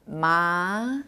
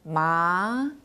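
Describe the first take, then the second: First: The pitch rises smoothly from mid to high. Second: The same.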